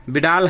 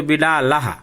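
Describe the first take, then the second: First: Said in the usual way. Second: बिडालह ending in a breathy echo, bi-daa-la-ha; visarga added. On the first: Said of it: "विसर्ग जोड़ दें तो". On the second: Shown as a demonstration. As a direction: say बिडालह with the visarga as a light "ha" after the final a. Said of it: "विसर्ग जोड़ दें तो बिडालह".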